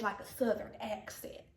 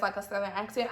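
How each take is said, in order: First: Soft, drawled Southern accent; put-on Southern accent, tailing off softly; Southern accent demo. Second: Said in the usual way. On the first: Shown as a demonstration. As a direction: say it with a country Southern twang. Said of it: "So I feel like this is". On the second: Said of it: "But the way I talk".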